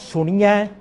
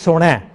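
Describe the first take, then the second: First: The word ends in an 'iya' sound. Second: The word ends in an 'ai' sound. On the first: The speaker calls it wrong. "Not Suniya" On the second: The speaker calls it right. "So it is Sunai"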